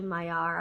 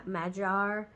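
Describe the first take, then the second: First: "Magyar" said MY-ar, without a g sound; local name attempt. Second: "Magyar" said MAD-jar, with a j sound; second attempt. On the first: Vlogger trying the country's own name for viewers, "Magyar" as MY-ar. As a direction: glide through "Magyar" as MY-ar. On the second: Vlogger retrying the local name before spelling it, "Magyar" as MAD-jar. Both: Shown as a demonstration. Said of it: "is how they say it".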